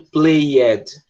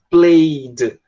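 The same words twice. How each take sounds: First: An extra vowel is pronounced before the final d. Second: No vowel is heard before the final d. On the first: The speaker calls it wrong. "a gente não está falando played" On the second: The speaker calls it right. "a gente está pegando esse E e a gente está cortando ele"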